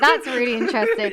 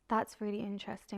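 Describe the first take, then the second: First: It sounds genuine and sincere. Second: It sounds fake and insincere.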